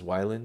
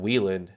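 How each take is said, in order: First: The first syllable sounds like 'why'. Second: The first syllable sounds like 'wee'. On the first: The speaker calls it right. "I guess it's Wyland because people keep calling him Patrick Kryland" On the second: The speaker calls it wrong. "I would have automatically pronounced it Wieland"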